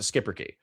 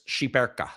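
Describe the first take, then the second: First: It is pronounced the American way. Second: It is pronounced the way it is written. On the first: "Americans ... they pronounce it skipper key" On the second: "I used to pronounce this Shiperka. Because that, that's how it's written"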